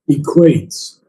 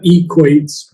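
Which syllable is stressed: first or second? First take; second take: second; first. First: The stress is on the second syllable. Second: The stress is on the first syllable. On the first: The speaker calls it right. "but equates on the second syllable" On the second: The speaker calls it wrong. "Not equates"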